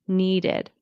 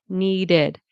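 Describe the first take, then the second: Both takes have the same delivery.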